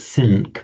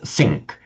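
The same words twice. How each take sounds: First: The nasal before the K is a plain n. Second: The nasal before the K is an ng sound. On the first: The speaker calls it wrong. "we don't say sink" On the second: The speaker calls it right. "it's sink. We automatically change the N sound to a N with the following K"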